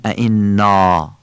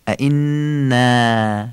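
First: ائنا with a dark back "aa" ending; wrong heavy alef. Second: ائنا drawn out slowly, ending in a long front "æ"; thin alef. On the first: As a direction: end ائنا on a Persian long "â". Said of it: "نمیگیم ائنا". (ائنا با الفِ پر، مثل آ) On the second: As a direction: hold the n, then a long light "a" in ائنا. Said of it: "یعنی ایه کشیده". (ائنا با الفِ نازک، اَی کشیده) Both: Shown as a demonstration.

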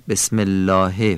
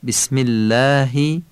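First: "الله" ending in a Persian "he"; Persian pronunciation. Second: "اللهی" ending in a short Arabic "i"; Arabic pronunciation. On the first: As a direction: say الله as Persian "laahe", back vowel and "e". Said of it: "فارسیه". («الله» با لحن فارسی) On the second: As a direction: say اللهی as "læhi", long thin vowel. («اللهی» با لحن عربی) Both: Shown as a demonstration.

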